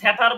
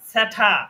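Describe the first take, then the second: First: The r sound is pronounced after the vowel. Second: The r sound is dropped after the vowel. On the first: The speaker calls it wrong. "স্যাটার রয়ের উচ্চারণ হবে না এখানে" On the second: The speaker calls it right. "আমি বলেছি স্যাঠা"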